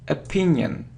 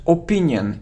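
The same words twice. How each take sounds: First: The word starts with an 'a' sound. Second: The word starts with an 'or' sound. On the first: The speaker calls it right. "it's a, opinion" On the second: The speaker calls it wrong. "it isn't or"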